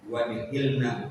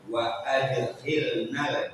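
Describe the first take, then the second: First: There is no vowel sound after wa. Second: There is a clear a vowel after wa. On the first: The speaker calls it wrong. "bukan wa dihilna" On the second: The speaker calls it right. "alifnya dibaca pakai harokat"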